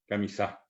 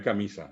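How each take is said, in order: First: "camisa" as ca-mi-SÁ, softer; Guaraní final stress. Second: "camisa" as ca-MI-sa, falling; Spanish stress. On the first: Teacher repeating the Guaraní form, final stress. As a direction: land on the last A of "camisa". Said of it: "en guaraní es camisa". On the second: Teacher rejecting the Spanish form, middle stress. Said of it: "No es camisa". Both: Shown as a demonstration.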